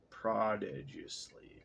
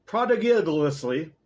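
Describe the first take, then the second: First: Prodigiously said slowly and softly; unsure reading. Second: Prodigiously said slowly, louder and higher; deliberate try. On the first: Reader puzzling over a word, soft slow prodigiously. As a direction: feel out the unfamiliar word. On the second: Reader trying the word again, loud slow prodigiously. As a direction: commit to the word. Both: Shown as a demonstration. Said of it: "look up prodigiously".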